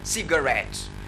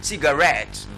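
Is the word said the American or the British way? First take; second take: American; British. First: It is said with an American stress pattern. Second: It is said with a British stress pattern. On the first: "In American English, they, they, they say cigarette" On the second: "In uh, British English, they say cigarette"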